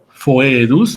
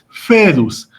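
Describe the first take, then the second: First: The first vowel is the full diphthong oe. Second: The first vowel is a plain e sound. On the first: This is the classical Latin pronunciation. "en la clásica se pronuncia la o y la e juntas" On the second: This is the Italian or ecclesiastical Latin pronunciation. "en la italiana o eclesiástica se pronuncia únicamente como e"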